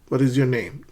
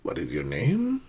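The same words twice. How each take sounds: First: The voice rises only slightly at the end. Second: The voice rises sharply and high at the end. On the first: The speaker calls it right. "make sure that your voice rises slightly, but not too high" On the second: The speaker calls it wrong.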